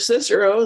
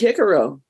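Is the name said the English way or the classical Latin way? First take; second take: English; classical Latin. First: The name is said the usual English way. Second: The name is said the classical Latin way. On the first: This is the familiar modern form. "If you've heard of Cicero" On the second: This is how it was originally said. "it would have been Cicero"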